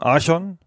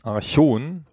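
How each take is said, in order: First: The stress is on the first syllable. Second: The stress is on the second syllable. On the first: "auf der ersten Silbe zu betonen" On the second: "mit der Betonung hinten"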